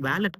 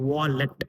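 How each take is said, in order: First: The first vowel is spread, like 'vay'. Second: The first vowel is said with rounded lips. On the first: The speaker calls it wrong. "அது வேலட் கிடையாது" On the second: The speaker calls it right. "உங்க உதட வந்து round பண்ணுங்க"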